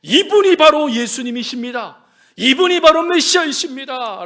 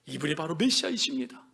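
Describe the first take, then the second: First: Loud, ringing declaration; preacher's emphatic announcement; bold proclamation. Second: Lower, softer statement of faith; subdued, reverent affirmation; hushed declaration. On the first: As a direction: proclaim it out to everyone at full volume. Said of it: "그는 선포해요". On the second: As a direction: say it low, with quiet conviction. Same proclamation repeated in hushed voice. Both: Acted.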